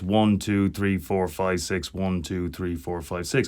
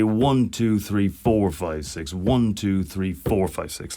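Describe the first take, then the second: First: All counts are said evenly, without accents. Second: The counts one and four are stressed.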